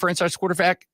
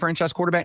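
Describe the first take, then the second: First: The stress falls on the word quarterback. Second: The stress falls on the word franchise. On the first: The speaker calls it wrong. "not on quarterback" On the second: The speaker calls it right. "put the emphasis on franchise"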